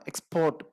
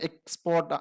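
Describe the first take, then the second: First: export with PORT stressed, ex-PORT; verb stress on second syllable. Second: export with EX stressed, EX-port; noun stress on first syllable. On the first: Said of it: "പീക്കാണ് അവിടെ, stress കൊടുക്കുന്നത്". (Export രണ്ടാം സിലബിളിൽ ഊന്നൽ) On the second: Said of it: "ഈക്കാണ് അവിടെ stress കൊടുക്കുന്നത്". (Export ആദ്യ സിലബിളിൽ ഊന്നൽ) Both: Shown as a demonstration.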